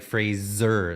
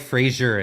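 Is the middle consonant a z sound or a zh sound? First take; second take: z; zh. First: The middle consonant is a plain z sound. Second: The middle consonant is a soft zh sound. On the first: The speaker calls it right. "It's like Fraser, Zer, like uh, Z Z E R" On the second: The speaker calls it wrong. "Frasier has more of like a G sound, a J"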